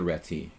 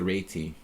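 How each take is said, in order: First: The name is said the everyday English way. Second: The name is said the Hungarian way. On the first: The speaker calls it wrong. "it's not the reti" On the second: The speaker calls it right. "it's the reti. I heard it from a Hungarian"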